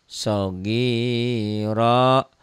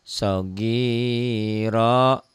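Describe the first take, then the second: No difference in how they are said.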